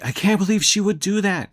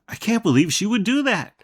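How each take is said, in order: First: It is said in an angry tone. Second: It is said in a surprised tone.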